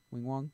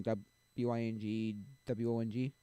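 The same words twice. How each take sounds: First: Said in the usual way. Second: Each letter of W I N G W O N G spelled slowly. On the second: Shown as a demonstration. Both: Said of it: "That's Wing Wong".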